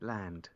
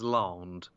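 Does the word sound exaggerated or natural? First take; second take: natural; exaggerated. First: It is said with a plain, natural British vowel. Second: It is said with an exaggerated put-on British vowel. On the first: The speaker calls it right. "Land, Bobby, land" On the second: The speaker calls it wrong. "Nobody in, in England says larned"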